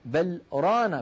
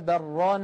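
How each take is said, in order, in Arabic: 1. توجد سكتة قصيرة تفصل بين الكلمتين. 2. تتصل الكلمتان دون سكتة. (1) "أن يعلم السامع أن بل أداة، ورانا فعل مستقل عنها" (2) "لو وصلنا لتعين علينا أن نقول كلا بران"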